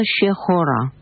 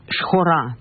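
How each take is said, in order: First: "шехора" with an audible e between ш and х; подвижная шва. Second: "шхора" with a silent shva, ш joined straight to х; разговорное произношение. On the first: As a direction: sound the shva as e in «шехора». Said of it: "произносилась бы шва на". («шехора» со слышной швой, три слога) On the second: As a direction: say «шхора» with no vowel after ш. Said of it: "на самом деле неправильно, но так говорят". («шхора» с немой швой, без «е») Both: Shown as a demonstration.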